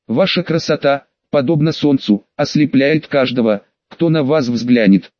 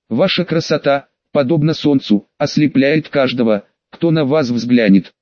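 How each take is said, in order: First: Full of feeling. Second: Ringing with feeling. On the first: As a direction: pour every feeling into it. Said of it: "Пытаясь передать все чувства". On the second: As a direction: proclaim it with pathos. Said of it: "Мой голос звенел от вкладываемых чувств". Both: Acted.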